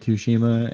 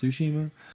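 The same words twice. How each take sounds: First: The opening T is pronounced strongly. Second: The opening T is pronounced lightly. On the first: The speaker calls it wrong. "I'm very American because I say Tsushima" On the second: The speaker calls it right. "it's actually pronounced Tsushima"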